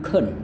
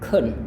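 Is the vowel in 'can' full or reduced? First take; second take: reduced; reduced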